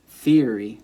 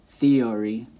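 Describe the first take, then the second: First: THEORY said THEE-uh-ree, front stressed; stress on first syllable. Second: THEORY said thee-OR-ee, middle stressed; stress moved later. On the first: Teacher showing possible stress spots, theory stressed on THEE. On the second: Teacher showing possible stress spots, theory stressed on OR. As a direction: push the OR in theory. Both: Shown as a demonstration. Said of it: "multiple spots where you could put the stress".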